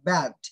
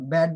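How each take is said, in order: First: "ব্যাড" with a wide open æ; correct bad. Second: "ব্যাড" with a narrow bed-like e; old habit. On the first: Teacher gives the corrected form, "ব্যাড" with open æ. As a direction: hit and open the vowel in "ব্যাড". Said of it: "এটা হবে কি". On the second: Teacher recalls how we used to say it, "ব্যাড" with e. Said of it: "আমরা আগে কি বলতাম". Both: Shown as a demonstration.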